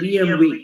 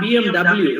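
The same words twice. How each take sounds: First: The last letter is said as vay. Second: The last letter is said as double-u. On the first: The speaker calls it right. "W is pronounced as V" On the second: The speaker calls it wrong. "So it is not B M W"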